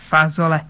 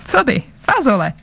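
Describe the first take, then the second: First: Mild contempt on one repeated word; contemptuous. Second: Casually calm, pitch lifting then falling; calm reply. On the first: Big man scoffs at Bzuk's answer, mildly contemptuous. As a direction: repeat it dismissively, a touch of scorn. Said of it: "řekl Lestro pohrdavě". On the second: Bzuk answers the big man's roar, calmly. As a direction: answer lightly, quite untroubled. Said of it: "řekl klidně Bzuk". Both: A narrator's reading.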